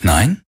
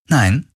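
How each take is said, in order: First: Mildly taken aback, rising questioning "Nein?"; "Nein?" lifted at the end in surprise; surprised question. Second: "Nein." pitched up, coolly teasing; mock-sweet denial. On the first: Man reacts to her unexpected denial, surprised question. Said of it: "Er hob überrascht eine Braue". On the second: She rebuffs his surprised question, mock-sweet denial. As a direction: answer "Nein." with a raised, mocking lilt. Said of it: "Parodie eines Lächelns". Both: A narrator's reading.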